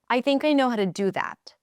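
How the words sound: The pitch falls at the end. The speaker is certain and confident. "When I drop at the end"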